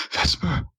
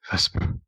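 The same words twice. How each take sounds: First: High-pitched, urgent call; shouting a name. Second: Hushed, voiceless whisper; whispered name. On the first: Game master voices Ayin calling to Vesper, shouting. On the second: Game master voices Ayin calling to Vesper, whispering. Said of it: "Ayin whispers". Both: Acted.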